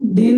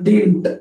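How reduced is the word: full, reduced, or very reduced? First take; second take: very reduced; reduced. First: One syllable is said, with no final t. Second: One syllable is said, ending in t. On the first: "डिंटलाच डिन म्हणतात" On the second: "shortcut करून असं म्हणतात"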